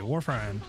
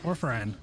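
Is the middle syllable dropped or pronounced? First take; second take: dropped; dropped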